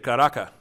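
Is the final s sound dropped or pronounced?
dropped. The final s sound is dropped. "they say Caraca"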